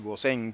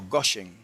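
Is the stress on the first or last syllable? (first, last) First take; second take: last; first. First: The stress is on the last syllable. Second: The stress is on the first syllable. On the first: This is the usual form in Spanish translations. "como todo el mundo, ¿verdad?, dice Gosén" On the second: This is the form in the original Hebrew. "Tiene el acento en la O"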